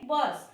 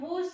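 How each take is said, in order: First: The vowel is a short uh sound. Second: The vowel is a long oo sound. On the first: The speaker calls it right. "अ असा होतो" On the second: The speaker calls it wrong. "इथे आपण बूस नाही म्हणत"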